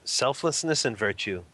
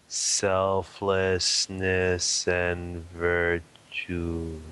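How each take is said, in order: First: It is said at a normal speed. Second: It is said very slowly.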